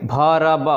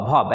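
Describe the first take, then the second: First: वर्ब with the R rolled; wrong pronunciation. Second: वर्ब said without the R; वर्ब with the R dropped; silent R. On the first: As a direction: say वर्ब sounding the R. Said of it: "इस तरह से नहीं पढ़ेंगे". (आर बोलकर गलत उच्चारण) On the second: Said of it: "आर को silent करके पढ़ेंगे". (आर साइलेंट करके उच्चारण) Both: Shown as a demonstration.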